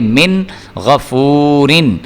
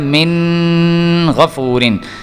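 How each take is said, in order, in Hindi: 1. n छोटा है, इसमें नाक की गुनगुनाहट नहीं है। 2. n को नाक की गुनगुनाहट के साथ खींचा जाता है। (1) "इसलिए हम इसको मिन करके नहीं पढ़ेंगे, बल्कि पढ़ेंगे" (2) "अब गुन्ना अगर हम यहाँ पे करते तो हमने पढ़ना था"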